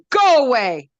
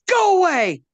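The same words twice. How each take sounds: First: Loud, high scream. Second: Much higher, loud snarl; grumpy tree. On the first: Blackberry screaming at Wolf to leave, loud high scream. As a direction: scream him away. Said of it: "And Blackberry screamed". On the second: Blackberry telling Wolf to leave, loud high snarl. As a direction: shove him off with a bark. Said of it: "And Blackberry said". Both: A narrator's reading.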